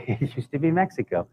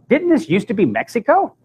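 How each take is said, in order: First: Said in the usual way. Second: High-pitched mock question, rising on Mexico. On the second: Shuttle woman asking him about Mexico, questioning. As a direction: imitate a puzzled woman, much higher.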